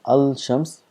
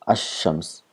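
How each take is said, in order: First: The L sound is clearly pronounced before shams. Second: The L is silent and the sh is doubled. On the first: The speaker calls it wrong. "we don't pronounce as al shams" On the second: The speaker calls it right. "we make this lam silent and we give shadda"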